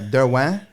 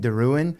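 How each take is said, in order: First: The surname is said with French pronunciation. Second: The surname is said with anglicized pronunciation. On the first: This is the family's original pronunciation. "Derwin is actually the uh, French pronunciation" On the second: This is how most people say it. "people call me Deruin"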